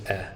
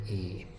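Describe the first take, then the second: First: "eh" as a short open vowel, not the letter; short eh sound. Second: "E" said as the letter name, a long ee. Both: Shown as a demonstration. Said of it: "It's actually really eh".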